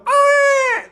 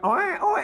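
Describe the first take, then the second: First: The cry is imitated loudly and forcefully. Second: The cry is imitated softly and weakly.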